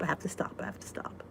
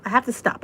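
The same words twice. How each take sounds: First: Whispered, softer and softer; fading whisper. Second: Said in the usual way. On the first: Real, not acted. Whispering a reminder to herself, fading away. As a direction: whisper it to yourself until it fades. Repeated under her breath.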